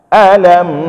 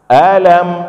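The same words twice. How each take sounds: First: The word is said with a questioning intonation. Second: The same.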